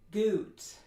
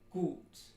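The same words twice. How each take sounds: First: The vowel is pushed forward in the mouth. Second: The vowel is long, tense, back and steady. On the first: The speaker calls it wrong. "That would be fronting" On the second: The speaker calls it right. "So it should be gut"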